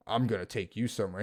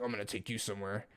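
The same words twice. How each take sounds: First: Said in the usual way. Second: Menacing hush. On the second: Retold or imitated. And he looked at him like that.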